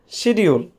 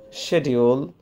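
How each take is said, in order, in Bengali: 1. এটি বাঙালি উচ্চারণে বলা হয়েছে। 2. এটি ব্রিটিশ উচ্চারণে বলা হয়েছে। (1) "we are Bengali, we pronounce this word schedule" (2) "In British English, it is pronounced schedule"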